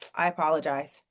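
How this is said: The apology is said in a dismissive tone. The apology does not count as validation. The speaker calls it wrong. "but if you're like, ... it don't count. If your tone is off, we can tell"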